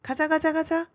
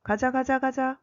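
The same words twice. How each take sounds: First: High, light rallying cry; mock yell. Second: Raised-pitch call to get moving; mock shout. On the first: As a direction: imitate an eager yell at normal volume. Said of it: "And Joey also yells". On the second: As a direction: imitate a manager's shout at normal volume. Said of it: "the manager shouts".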